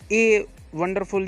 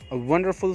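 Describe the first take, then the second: First: The first word sounds like 'ay'. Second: The first word is a short 'uh' sound. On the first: The speaker calls it wrong. "ये नहीं" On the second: The speaker calls it right. "इसी तरीके से करिएगा अ"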